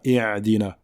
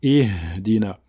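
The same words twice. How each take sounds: First: "ihdina" with a throat Ayn in place of H; Ayn replacing Ha. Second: "ihdina" with a long, audible breathed H; clear Ha. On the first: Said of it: "ne pas la confondre avec la lettre Aïn". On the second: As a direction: let the H in "ihdina" sound fully before "dina". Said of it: "mais on dit". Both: Shown as a demonstration.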